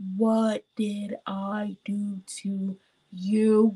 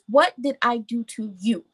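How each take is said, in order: First: It is said slowly and deliberately. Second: It is said at normal speed.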